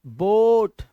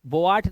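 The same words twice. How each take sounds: First: बोट with one long o, louder; loud one-vowel बोट; correct boat. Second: बोआट split into bo-aat; wrong two-vowel बोआट; misreading of boat. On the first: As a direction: say बोट as a single stretched syllable. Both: Shown as a demonstration. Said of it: "बोआट नहीं".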